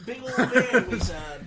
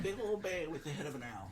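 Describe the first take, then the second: First: Laughing through the words; louder, higher, breaking into laughter. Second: Said in the usual way. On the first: Real, not acted. Laughs describing the owl bear.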